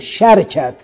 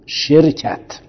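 First: First vowel a, no vowel after r. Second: First vowel i, no vowel after r. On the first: "او به فتح و سکون" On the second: "به کسر و سکون"

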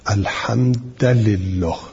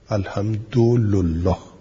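First: The d has a and the l has i. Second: The d has u and the l has u. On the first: "و به فتح دال و کسر لام" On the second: "و به ضم دال و لام"

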